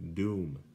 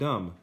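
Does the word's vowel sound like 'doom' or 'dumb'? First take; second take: doom; dumb. First: The vowel is a long oo sound. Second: The vowel is a short uh sound. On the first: The speaker calls it right. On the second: The speaker calls it wrong. "Not dumb"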